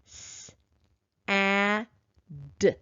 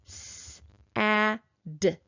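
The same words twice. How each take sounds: First: The sounds are said slowly and apart. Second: The sounds are said a little faster. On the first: "slowly at first" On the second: "a little faster"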